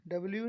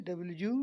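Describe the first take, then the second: First: Quick run-together डब्ल्यू; wrong W. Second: डब्ल्यू ending in a long separate यू; correct W. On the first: Teacher showing what W is not, quick डब्ल्यू. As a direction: slur डब्ल्यू into one quick word. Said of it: "डब्ल्यू नहीं". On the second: Teacher correcting students' W, stretched यू. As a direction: draw out the यू in डब्ल्यू. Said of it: "डब्ल्यू नहीं डब्ल्यू". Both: Shown as a demonstration.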